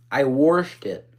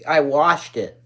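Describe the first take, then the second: First: I washed it with washed leaning; weight on washed, said level; washed gets the push; stress on washed. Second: I washed it, leaning on I; stress on I. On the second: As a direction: put the weight on I, not washed. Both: Real, not acted.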